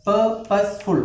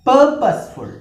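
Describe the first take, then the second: First: purposeful slowly split into three syllables. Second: purposeful with a high, loud first syllable; first-syllable stress. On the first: Teacher counting syllables, purposeful slowly in three parts. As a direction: separate each part of purposeful. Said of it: "മൂന്ന് syllable". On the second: Teacher modelling stress, first syllable of purposeful punched. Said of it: "first സിലബിളാണ് stress". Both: Shown as a demonstration.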